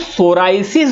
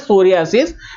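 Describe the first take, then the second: First: The middle sounds like 'rye'. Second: The middle sounds like 'ree-ah'. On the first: This is how ordinary people say it. "वो उसको सोराइसिस बोलता है" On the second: This is the medical way of saying it. "That is the medical pronunciation"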